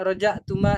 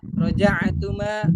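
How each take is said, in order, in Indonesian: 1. Huruf tengahnya hamzah biasa. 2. Huruf tengahnya ain yang jelas, dari tenggorokan. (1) "Jangan dibaca rojak. ... Kalau rojak berarti pakai hamzah" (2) "Kalau ain itu jelaskan"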